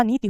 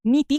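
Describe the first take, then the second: First: नीति with a short final i; नीति, long first vowel and short last one; correct short ending. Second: नीति with the final vowel stretched to "tee"; नीति mispronounced with a long last i; wrong long ending. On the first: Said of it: "नीति होता है". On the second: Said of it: "नीति कुछ नहीं होता". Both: Shown as a demonstration.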